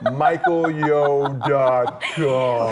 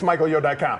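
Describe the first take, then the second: First: It is said slowly. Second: It is said fast.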